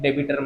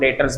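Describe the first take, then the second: First: The b sound is pronounced in the middle. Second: The b sound is left silent in the middle. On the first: The speaker calls it wrong. "डेबिटर मत बोलना" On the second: The speaker calls it right. "बी silent है"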